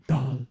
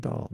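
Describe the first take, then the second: First: "dal" with a thick Indian d, drawn out; Indian-style dal. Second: "dal" said the American way, plain d. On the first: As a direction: contrast it with an exaggerated Indian "dal". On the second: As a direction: quote "dal" back in American pronunciation. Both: Retold or imitated. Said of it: "you said dal, not dal".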